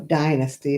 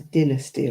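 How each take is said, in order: First: It is said the American way. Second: It is said the British way. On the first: "as you say in America" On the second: "It was Dynasty over here"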